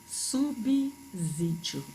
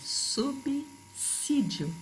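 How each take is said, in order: First: The sound after 'sub' is a voiced z. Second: The sound after 'sub' is a voiceless s. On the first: The speaker calls it wrong. "Muita gente falando subsídio e não é" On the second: The speaker calls it right. "Sub seguido de S tem pronúncia de dois S's"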